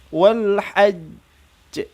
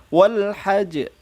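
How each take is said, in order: First: The final consonant is held, then released with echo. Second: The final consonant is cut short without holding. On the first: The speaker calls it right. "Karena ada tasydid, ditahan dua harokat, baru diikuti qalqalah" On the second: The speaker calls it wrong. "jadi bukan langsung wal hajj"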